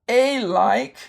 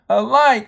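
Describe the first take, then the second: First: The first vowel is a long sound. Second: The first vowel is a weak schwa. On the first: "You could say this with the long sound" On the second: "it's what we call the uh, schwa sound"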